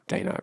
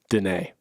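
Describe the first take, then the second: First: The name does not rhyme with Renee. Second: The name rhymes with Renee. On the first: The speaker calls it wrong. "as I've been saying it wrong" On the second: The speaker calls it right. "pronounced Renee with a D ... I will now say Danae"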